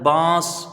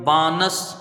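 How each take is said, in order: First: The n is hidden as nasal sound. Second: The n is pronounced as a full consonant. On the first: The speaker calls it right. "लेकिन पढ़ा क्या जाता है बांस" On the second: The speaker calls it wrong. "तो क्या हो गया वो बानस"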